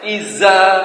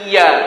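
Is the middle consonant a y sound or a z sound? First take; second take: z sound; y sound. First: The middle consonant is a z sound. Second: The middle consonant is a y sound. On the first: "dibacanya pakai za" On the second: "iya pakai ya"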